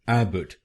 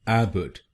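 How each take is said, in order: No difference in how they are said.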